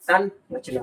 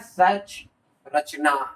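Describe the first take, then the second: First: The word begins with 'san', said as one. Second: The word begins with 'sach', split in two. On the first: The speaker calls it right. "संरचना होगा।" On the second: The speaker calls it wrong. "गलत।"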